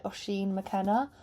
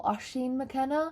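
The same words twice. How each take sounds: First: Oshin with a rounded O, "aw-SHEEN"; first pronunciation. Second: Oshin with an open A, "ah-SHEEN"; alternative pronunciation. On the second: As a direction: offer Oshin as "AH-sheen McKenna", questioning rise. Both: Shown as a demonstration. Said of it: "two different ways to pronounce it".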